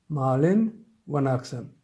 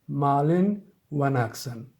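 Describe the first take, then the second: The two takes are said the same way.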